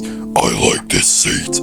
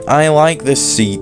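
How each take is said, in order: First: It is read in a put-on character voice. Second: It is read in a normal voice.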